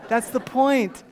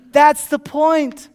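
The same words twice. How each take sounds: First: Said in the usual way. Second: Loud, high, slow proclamation; raised preaching voice, every word stretched; emphatic repeat. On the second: Real, not acted. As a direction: hammer the point home to the congregation.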